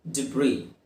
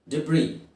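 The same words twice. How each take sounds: The two takes are said the same way.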